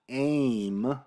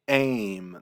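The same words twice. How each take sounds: First: The vowel begins smoothly with no catch. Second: The vowel bursts out after a glottal catch. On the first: The speaker calls it wrong. "instead of just thinking of this as aim" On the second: The speaker calls it right. "you have to burst through your glottis"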